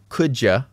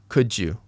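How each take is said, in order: First: The second word is cut to a quick 'ya'. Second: The words are linked, with 'you' kept. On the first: It sounds the least formal. "Could ya is the least formal" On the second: It sounds moderately formal. "I put this one in the middle"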